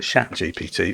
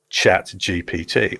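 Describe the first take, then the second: First: Chat is pronounced like the French word chat. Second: Chat is pronounced like the English word chat.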